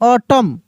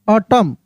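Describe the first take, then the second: The two takes are said the same way.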